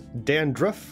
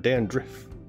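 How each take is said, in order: First: The last syllable sounds like 'ruff'. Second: The last syllable sounds like 'riff'. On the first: "Rough or riff?" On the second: "Rough or riff?"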